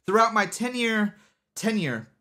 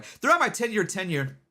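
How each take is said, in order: First: "ten-year tenure" said haltingly, tongue tripping; stumbling on tenure. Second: Said in the usual way. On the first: Real, not acted. Streamer fumbles a tongue-twister while explaining, halting. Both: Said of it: "That's a hard one to say".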